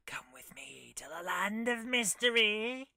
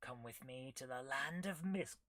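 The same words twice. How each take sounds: First: Slow, mysterious whisper; hushed spooky whisper, drawn out. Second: Said in the usual way. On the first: Acted. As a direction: whisper it like an eerie invitation. Redone as spooky game voice.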